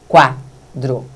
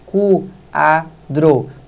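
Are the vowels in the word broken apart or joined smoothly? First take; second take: joined; broken apart. First: The vowels glide together in one movement. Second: The vowels are split into separate movements. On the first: The speaker calls it right. "o queixo desce uma vez só" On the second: The speaker calls it wrong. "Mexi três vezes"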